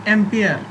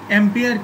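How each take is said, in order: Both takes have the same delivery.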